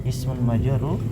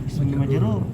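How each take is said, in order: The two takes are said the same way.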